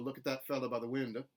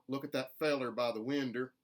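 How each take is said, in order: First: Window ends in an uh sound. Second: Fellow and window both end in er. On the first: "which is more general Southern" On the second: "with an er on the ends of those words, which is distinctly mountain"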